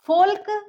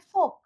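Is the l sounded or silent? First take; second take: sounded; silent. First: The l is sounded. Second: The l is silent. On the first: The speaker calls it wrong. "folk या योल्क नहीं बोलेंगे" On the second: The speaker calls it right. "हम इसको बोलेंगे folk"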